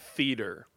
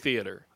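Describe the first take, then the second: First: The word is said with two syllables. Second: The word is said with three syllables. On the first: "You do that two-syllable pronunciation of theater" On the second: "I say theater"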